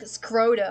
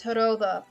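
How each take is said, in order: First: The middle consonant is a plain d sound. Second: The middle consonant is a soft th sound. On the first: The speaker calls it wrong. "They're just gonna do like Skroda, and I'm like, that's not what it is" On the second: The speaker calls it right. "It's not the island of Skroda, it's Heroda"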